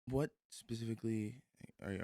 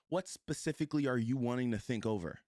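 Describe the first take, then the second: First: It sounds soft, hesitant and curious. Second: It sounds firm, direct and pushy. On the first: The speaker calls it right. "you got to say that in a specific way" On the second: The speaker calls it wrong. "You can't push with it. You can't say"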